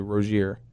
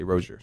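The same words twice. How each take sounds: First: The name is said the French way. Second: The name is said the American way.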